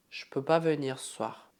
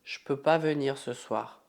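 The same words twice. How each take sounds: The two takes are said the same way.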